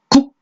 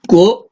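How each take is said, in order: First: The final consonant is cut off abruptly. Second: The ending is drawn out without a stop. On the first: "딱 국 끊어야 되는데" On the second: "못 끊고 어 하고 끈다고"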